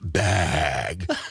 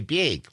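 First: The word is said in a Los Angeles accent. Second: The word is said in a Wisconsin accent. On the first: This is how people elsewhere insist it is said. "It's pronounced bag" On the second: This is how people back home say it. "We say bag"

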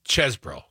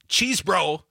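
First: The first syllable sounds like the word chess. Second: The first syllable sounds like the word cheese. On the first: The speaker calls it right. "the E-ese is like dessert, not desert" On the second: The speaker calls it wrong. "It's not cheese bro"

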